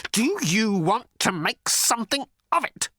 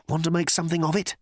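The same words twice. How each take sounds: First: High, halting, quavering dare; quavering challenge. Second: Quick, higher-pitched challenge; timid challenge. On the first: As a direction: dare him, voice wobbling up high. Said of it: "could not keep the quavering out of his voice". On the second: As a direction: toss out the dare quickly. Arthur first challenges Thor. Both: A narrator's reading.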